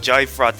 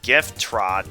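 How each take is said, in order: First: The name is run together into one word. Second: The name is said as two clear words. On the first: The speaker calls it wrong. "Everyone pronounces it Jyfrot" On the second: The speaker calls it right. "properly pronounce it correctly. It's Gift Trot"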